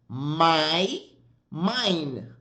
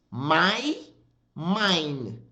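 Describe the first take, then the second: No difference in how they are said.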